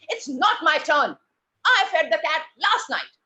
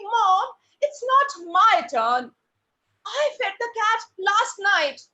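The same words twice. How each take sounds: First: Angry. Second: High, drawn-out, louder plea; pleading. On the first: Angry child telling off a younger sibling. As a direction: hit each word hard, crossly. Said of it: "And now you are angry". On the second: Child pleading with mom about whose turn it is. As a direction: plead with long stretched words. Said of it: "And you're pleading". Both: Shown as a demonstration.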